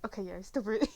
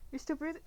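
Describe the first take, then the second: First: Settled, falling "you're still breathing" of relief; relieved reassurance. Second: Worried rising tone on "you're still breathing?"; anxious rising question. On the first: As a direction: tell yourself it's fine. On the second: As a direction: ask it up high, unsure. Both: Acted. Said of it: "like, just check".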